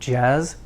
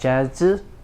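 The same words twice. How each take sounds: First: The word ends cleanly on the buzzing sound. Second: An extra vowel is added after the final buzz. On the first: The speaker calls it right. "but jazz" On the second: The speaker calls it wrong. "don't add an extra u, not jazz"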